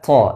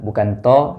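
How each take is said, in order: First: The sound is released with a puff of breath. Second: The sound is thin and light. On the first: "bukan pula to dengan mengalirkan nafasnya" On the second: "dibaca dengan tebal, bukan to"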